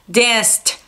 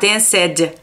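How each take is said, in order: First: The ending is said as a plain t sound. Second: The ending is said as a separate extra syllable. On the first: The speaker calls it right. "você só é colocar o som de T" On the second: The speaker calls it wrong. "para não ficar danced"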